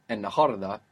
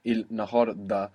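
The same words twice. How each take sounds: First: "النهاردة" run together as en-naharda; assimilated L. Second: "النهاردة" with the L sounded, il-nahar-da; literal form. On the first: Teacher showing assimilation, "النهاردة" with double N. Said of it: "the L will assimilate with that N". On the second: Teacher showing the literal parts, "النهاردة" with L. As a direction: break "النهاردة" into its parts, clear L. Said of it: "which is literally". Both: Shown as a demonstration.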